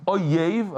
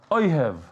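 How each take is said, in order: First: "oyev" said as o-yev, with a clear y sound; oyev, enemy. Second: "oyev" said as o-hev, with an h in place of the y; ohev, one who loves. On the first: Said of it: "you take the word oyev". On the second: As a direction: turn "oyev" into o-HEV with a breathy h. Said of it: "you turn into oyev". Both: Shown as a demonstration.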